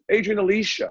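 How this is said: The name is said the English way.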